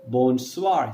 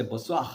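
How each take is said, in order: First: "bonsoir" with a clear final r; learner's "bonsoir", every sound pronounced; neutral accent. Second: Quick "bonsoir" ending in a throaty h; native French accent. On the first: Teacher showing what a native won't say, neutral accent. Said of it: "He's not gonna say". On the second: Teacher showing what a native will say, native accent. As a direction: let the r of "bonsoir" turn to breath. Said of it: "see, he's gonna say". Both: Shown as a demonstration.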